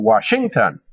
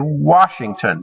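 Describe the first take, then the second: First: The stress falls on a later syllable. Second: The stress falls on the first syllable. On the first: The speaker calls it wrong. "We don't say Washington" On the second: The speaker calls it right. "the stress is put on that first syllable"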